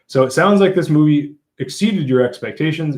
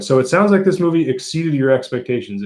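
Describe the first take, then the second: First: It is read slowly. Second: It is read fast.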